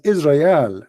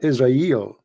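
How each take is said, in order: First: The name ends with an 'al' sound. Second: The name ends with an 'el' sound. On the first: This is the old Hebrew form. "So in the old Hebrew, it was" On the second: This is the modern Hebrew form.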